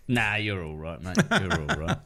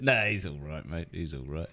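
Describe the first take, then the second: First: Grudging, offhand reassurance; backhanded praise. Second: Grudging praise fading out, much softer; backhanded praise. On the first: Kiwi bloke backhanding a comedian, grudging. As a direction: shrug it off half-hearted. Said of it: "the classic Kiwi backhanded". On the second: Kiwi bloke grudgingly praising Paul Ego, fading. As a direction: mutter it like a reluctant compliment. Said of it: "classic sort of backhanded". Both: Retold or imitated.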